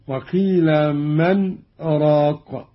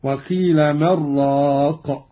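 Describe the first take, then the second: First: "من", a brief breathless halt, then "راق"; slow recitation, cut briefly between "من" and "راق"; pause after من. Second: "من راق" joined as "mar-raaq", no break; no pause, merged. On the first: Teacher shows the verse read with a silent break, pause after "من". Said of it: "قرأ قالون بدون سكت". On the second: Teacher demonstrates Qalun's reading, "من راق" without pause. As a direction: run "من" straight into "راق", n merged into r. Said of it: "قرأ قالون بدون سكت هكذا". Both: Shown as a demonstration.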